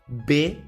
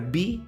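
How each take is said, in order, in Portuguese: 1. A letra é dita com a vogal 'eh'. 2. A letra é dita com a vogal 'ee'.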